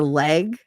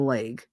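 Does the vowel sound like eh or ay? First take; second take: eh; ay. First: The vowel is a short eh sound. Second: The vowel is a long ay sound. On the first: "to most people" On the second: "L A Y G"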